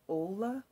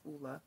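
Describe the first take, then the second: First: The name starts with an 'oh' vowel. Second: The name starts with an 'oo' vowel. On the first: The speaker calls it wrong. "for the longest time I was saying Ola" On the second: The speaker calls it right. "but it's pronounced Ulla"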